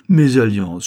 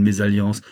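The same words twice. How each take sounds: First: Mésalliance said much louder, falling; Mésalliance echoed loud and pointed; stress on Mésalliance. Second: Said in the usual way. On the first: A narrator's reading. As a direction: throw back the word Mésalliance. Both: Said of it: "Mésalliance, Charles".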